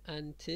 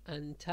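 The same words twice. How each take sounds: First: انت said "anti", ending in an i/e vowel; kasra ending. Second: انت said "anta", ending in an a vowel; fatha ending. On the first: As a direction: end انت on a short i sound, "an-ti". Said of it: "کسره داره". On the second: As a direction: end انت on a short a sound, "an-ta". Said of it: "فتحه داشت". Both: Shown as a demonstration.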